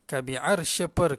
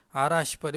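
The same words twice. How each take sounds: First: "arsy" with r running straight into sh; slow "arsy", no vowel after the r; silent-vowel r. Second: "arash" as two syllables, a-rash; Malay-style added vowel. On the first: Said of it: "dia mati". ("arsy" dengan huruf r mati) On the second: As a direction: put an a between r and sh in "arash". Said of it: "Dia bukan arash, ini bukan bahasa Melayu". ("arash" ikut sebutan Melayu) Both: Shown as a demonstration.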